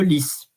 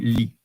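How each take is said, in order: First: The word ends with an audible s sound. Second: The word ends on the vowel, without s. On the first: The speaker calls it right. "normally when you have an S, you don't pronounce it, but here it is an, expre- an exception" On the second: The speaker calls it wrong. "I never heard someone talking about this flower saying li"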